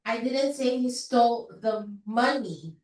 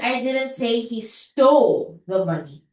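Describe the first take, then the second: First: The word money carries the stress. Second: The word stole carries the stress. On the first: He took something other than the money. "Probably he just stole the gold, not the money" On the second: He may have only borrowed it. "Baka hiniram lang naman niya"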